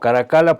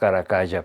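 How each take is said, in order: First: The double l is pronounced the Italian way. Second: The double l is pronounced the Spanish way. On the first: "porque es italiano"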